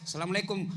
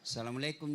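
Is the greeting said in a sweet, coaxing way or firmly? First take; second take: firm; coaxing. First: It is said in a firm, businesslike way. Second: It is said in a sweet, drawn-out, coaxing way.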